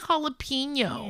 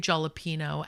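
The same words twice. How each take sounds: First: The word is pronounced the Spanish way. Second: The word is pronounced the English way. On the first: The speaker calls it right. "just because you don't speak Spanish, you can still say jalapeno" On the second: The speaker calls it wrong. "English mukbangers from England and they say jalapeno"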